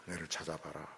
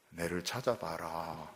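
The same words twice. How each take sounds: First: Very soft, almost whispered tease; near-whispered teasing. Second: Slow, hushed playful call; softer, slow teasing call. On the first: God hiding behind the door, near-whispering a playful dare. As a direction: fade it to a hush. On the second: God hiding behind the door, softly teasing his people. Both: Retold or imitated. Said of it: "왜 그렇게 하십니까?".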